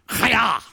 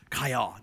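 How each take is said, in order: First: Chaya with a rasping throaty kh, said loud; guttural Hebrew chaya. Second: Said in the usual way. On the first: Shown as a demonstration. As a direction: bark out Chaya from the back of the throat. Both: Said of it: "here's how I remember it".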